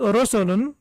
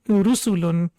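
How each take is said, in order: First: The first vowel sounds like o. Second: The first vowel sounds like u. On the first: The speaker calls it wrong. "It shouldn't be pronounced as Rosolun" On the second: The speaker calls it right. "because it's Ru sound"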